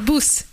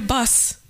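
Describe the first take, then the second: First: The vowel is a rounded 'oo' sound. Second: The vowel is an open 'uh' sound. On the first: This is how the local guide says it. "Они спрашивают, что такое бус" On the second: This is the form taught in school. "детей всегда в школе учат, говори бас"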